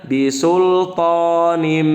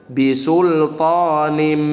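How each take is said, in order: The two takes are said the same way.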